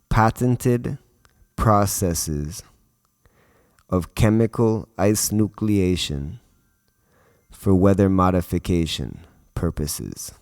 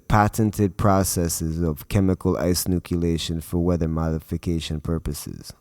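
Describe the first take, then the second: First: The phrase is spoken more slowly. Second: The phrase is spoken quickly. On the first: The speaker calls it right. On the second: The speaker calls it wrong.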